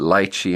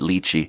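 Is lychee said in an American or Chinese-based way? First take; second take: American; Chinese-based. First: It is pronounced in an American way. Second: It is pronounced in a Chinese-based way. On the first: "he pronounced it lychee" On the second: "having my pronunciation based on Chinese, I pronounced it lychee"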